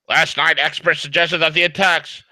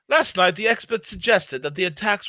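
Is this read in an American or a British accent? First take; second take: American; British. First: It is read in a plain American accent. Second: It is read in a put-on British accent.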